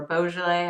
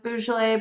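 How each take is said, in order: First: Beaujolais with "bo" at the start; variant pronunciation. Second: Beaujolais with "boo" at the start; variant pronunciation. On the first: Wine guest corrects the word, Beaujolais said with "bo". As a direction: say Beaujolais as "BO-zhuh-lay". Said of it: "what's the correct". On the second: Wine guest unsure of the word, Beaujolais said with "boo". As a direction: say Beaujolais as "BOO-zhuh-lay". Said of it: "or Beaujolais". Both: Shown as a demonstration.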